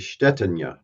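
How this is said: The surname is said with a Czech pronunciation. "it's actually Bohemian, which is now kind of Czech. It's actually Stetina"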